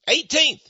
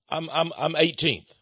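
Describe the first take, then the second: First: "Eighteenth?" thrown back higher and louder, falling at the end; mock disbelief at "Eighteenth?", pitched up; incredulous echo. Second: Said in the usual way. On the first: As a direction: repeat "Eighteenth?" as if you can't believe it. Incredulous echo of chief's answer.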